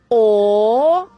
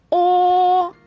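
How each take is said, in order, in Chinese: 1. 音高从中升到高。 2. 音高一直高且平。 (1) "二声扬" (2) "一声平"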